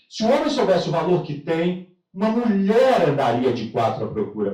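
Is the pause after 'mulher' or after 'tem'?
after tem. The pause falls right after the word 'tem'. Men are so valuable that women would crawl searching for them. "criei a terceira guerra mundial com a mulherada"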